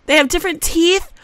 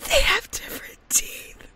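First: High, loud, rising at TEETH; surprised discovery. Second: High, squeaky whisper of disbelief; awed whisper. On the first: Gamer discovering toddler teeth options, loud surprise. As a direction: blurt it out, lifting on "teeth". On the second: Gamer repeating her discovery in disbelief, awed whisper. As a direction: whisper it, amazed and overcome. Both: Real, not acted.

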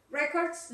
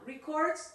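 First: Records said as RE-cords, stress on the first syllable with an open e; corrected noun records. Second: Records said as ri-CORDS, stress on the second syllable; first try at records. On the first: Teacher correcting herself to say Records as RE-cords. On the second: Teacher reading the noun Records, stressed re-CORDS. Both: Shown as a demonstration. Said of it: "with a different pronunciation".

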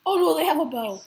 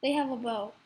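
First: Sudden loud panicked yell; alarmed shout. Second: Said in the usual way. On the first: Real, not acted. Sees enemy archer, panics.

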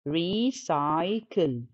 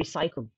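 First: Recycle slowed into re, cy, cle; syllable by syllable. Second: Said in the usual way. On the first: Shown as a demonstration. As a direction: sound out recycle in three separate beats. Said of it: "عد السيلابلز". (recycle مقطعة ببطء لتلات مقاطع) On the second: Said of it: "تبقى تلاتة syllables".

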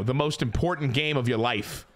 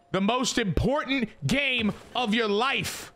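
First: Said in the usual way. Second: "The most important game of your life" stretched slow like a movie trailer; milk "most important game of your life" slowly for drama; dramatic slow repeat. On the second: Shown as a demonstration.

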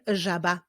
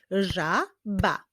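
First: Said in the usual way. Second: "Żaba" divided into Ża, ba; syllable by syllable. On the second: Shown as a demonstration. Teacher clapping with young readers, "Żaba" in separated syllables. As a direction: say "Żaba" with a gap mid-word. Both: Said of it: "Wyklaszczmy sylaby w tych wyrazach".

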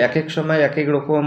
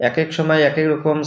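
No difference in how they are said.

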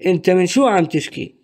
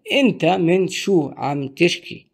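First: أنت من شو عم تشكي run together quickly; fast native speed. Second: Said in the usual way. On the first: Shown as a demonstration. Teacher models the full sentence fast for learners. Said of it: "What is the meaning of this full sentence".

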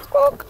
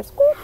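First: A much higher squawk; a high, sharp goose squawk. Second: Said in the usual way. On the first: Acted. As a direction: honk it out like a noisy goose. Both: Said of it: "And they go squawk".

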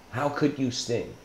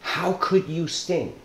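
First: Softer, sinking repeat of the question; a softer, resigned repeat of the frog's question; quieter repeat. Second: Higher, slow, wounded question; a mildly hurt frog asking the scorpion why; anguished frog. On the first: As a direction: let it drop, almost to yourself. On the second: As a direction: ask it slowly, stung by betrayal. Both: Retold or imitated. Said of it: "And he says".

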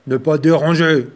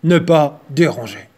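First: Loud growling bear; growled. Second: Loud gruff bear voice. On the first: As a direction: growl it at the little mouse. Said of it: "grogna-t-il". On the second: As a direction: growl it like a grumpy bear. Title read as bear's growl. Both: Acted.

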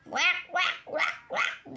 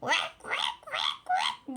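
First: A light, higher mock "Vak, vak" quack, fading to breath; bird call imitation. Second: Breathy "Vak, vak" then a very high squawk; bird call imitation. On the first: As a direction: lightly copy the bird's honking call. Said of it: "diye bağırıyor böyle". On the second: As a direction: imitate the big bird's call as it cries. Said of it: "Ben de onun gibi bağırıyorum".

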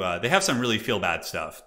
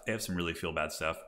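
First: Said in the usual way. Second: Much softer, lower murmured echo; quiet aside. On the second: Real, not acted. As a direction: repeat it under your breath. Repeats the phrase as an aside.

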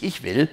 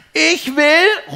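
First: Said in the usual way. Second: Sehr hoher, lauter Kinderruf; rufendes Kind. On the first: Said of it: "doch Papa unterbricht sie". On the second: A narrator's reading. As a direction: ruf fordernd und gedehnt wie ein Kind. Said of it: "ruft Pin". (lautes, forderndes Kinderrufen)

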